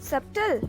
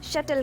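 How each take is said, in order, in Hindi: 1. बीच में b की ध्वनि उच्चारित होती है। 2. बीच में b की ध्वनि साइलेंट होती है। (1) "जी नहीं" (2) "बी यहाँ पे साइलेंट है।"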